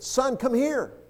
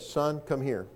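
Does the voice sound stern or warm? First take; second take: warm; stern. First: The voice sounds warm and happy. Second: The voice sounds stern and threatening. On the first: Something good is going to be shared. "the tone of his voice that time said, "I have something I want to share with you, and it's good."" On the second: The listener is in trouble. "just the tone of his voice made you think, "Okay, what have I done this time? Or I'm in trouble.""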